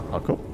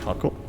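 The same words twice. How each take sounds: The two takes are said the same way.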